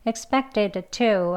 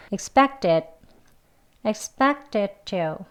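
First: Expected to with D and T both released; the clumsy expected to, slowly; awkward separate T and D. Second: Expected to with the D held and never released; expected to joined smoothly; linked D into T. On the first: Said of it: "여기 어색하죠". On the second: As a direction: run expected into to, one tongue release. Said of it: "이렇게 연결되는 거예요". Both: Shown as a demonstration.

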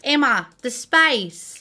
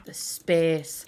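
First: Put-on Australian accent, slowly drawn out. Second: Said in the usual way. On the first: Builder imitating an Australian calling to Emma, Australian accent. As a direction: attempt an Australian accent on SPACE. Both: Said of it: "my Australian accent".

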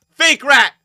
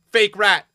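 First: Very high, very loud insult; all-out taunting yell; screamed jeer. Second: Loud, high jeer; raised-voice taunt; jeering shout. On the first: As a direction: scream it at the opponent. Insult repeated harder. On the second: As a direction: call it out loudly as an insult. Name-calling the beaten opponent. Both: Real, not acted.

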